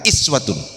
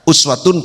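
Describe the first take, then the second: First: The word begins with an 'ee' vowel. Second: The word begins with an 'oo' vowel. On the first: "boleh dibaca iswatun" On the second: "boleh dibaca uswatun"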